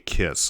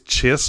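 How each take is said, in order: First: The word begins with a k sound. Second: The word begins with a ch sound.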